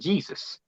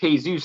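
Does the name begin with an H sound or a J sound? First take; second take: J sound; H sound. First: The name begins with a J sound. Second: The name begins with an H sound. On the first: This is the English way of saying it. The speaker calls it wrong. "and not Jesus" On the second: This is the Spanish way of saying it. The speaker calls it right. "you don't pronounce it J. That's why it's Jesus"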